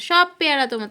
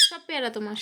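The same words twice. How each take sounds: First: Louder, insistent offer to the pet; firmer, louder coax to a pet. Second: Hushed and gentle, much softer; soft coax to a pet. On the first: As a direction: push the offer out more firmly. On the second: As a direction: murmur it to the bird. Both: Real, not acted. Coaxing pet to eat guava.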